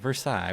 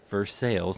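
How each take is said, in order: First: It is said the way most outsiders say it. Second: It is said the local Kentucky way. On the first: This is how the rest of the world says it. The speaker calls it wrong. "not Versailles, like uh, everyone else in the world would think" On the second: This is how the townspeople say it. The speaker calls it right. "the close town that you guys grew up is Versailles"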